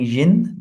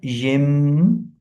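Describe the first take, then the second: First: The syllable ends with an n sound. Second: The syllable ends with an m sound. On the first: The speaker calls it wrong. "We are not reading yin" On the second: The speaker calls it right. "but yim"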